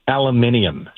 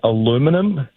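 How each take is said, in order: First: The word ends in '-nium', with five syllables. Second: The word ends in '-num', with four syllables. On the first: "we would say aluminium" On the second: "instead of saying aluminum"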